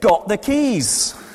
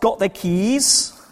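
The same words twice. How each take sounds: First: The voice falls at the end, like a statement. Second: The voice rises at the end, like a question. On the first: It tells that the speaker has the keys. "you said" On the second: It asks whether the listener has the keys. "I asked"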